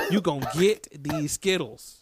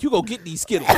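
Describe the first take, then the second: First: Slow emphatic repeat. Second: Said in the usual way. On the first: Real, not acted. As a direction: draw out "gonna get these Skittles" for emphasis. Repeats hype line, slower, lower.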